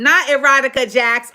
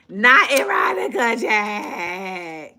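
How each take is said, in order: First: Said in the usual way. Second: Slow, NOT hit hard; emphatic correction, slowed right down; stress on NOT. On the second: Shown as a demonstration. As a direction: lean on NOT, drag it out.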